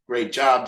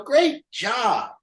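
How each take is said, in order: First: Said in the usual way. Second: "Great job" pitched much higher, a hollow cheer; mock upbeat praise. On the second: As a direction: fake parental enthusiasm, higher. Parent praises kid in car.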